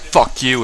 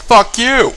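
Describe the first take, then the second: First: Said in the usual way. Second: Very high, hammed-up comeback shout; mock angry retort. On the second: Max answering Vlad's insult, high mock-angry shout. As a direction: fire it back in a high mock yell. Acting Max's louder retort back.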